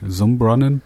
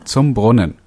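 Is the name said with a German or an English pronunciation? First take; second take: English; German. First: The name is said with an English pronunciation. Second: The name is said with a German pronunciation. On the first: "How would you pronounce that in English?" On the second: "His last name is so German, I'm going to just pronounce it that way"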